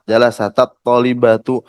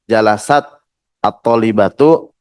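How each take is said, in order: First: The final t is joined to the next word with a. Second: The final t carries no vowel before the next word. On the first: The meaning may change. The speaker calls it wrong. "Seperti fathah misalnya" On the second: The meaning stays the same. The speaker calls it right. "kalau tetap disukunkan"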